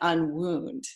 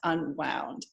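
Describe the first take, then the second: First: The vowel sounds like the one in 'moon'. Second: The vowel sounds like the one in 'cow'. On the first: It reads as the opposite of an injury. "It's actually unwound" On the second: It means loosened from being tightly wound. "but it's pronounced unwound"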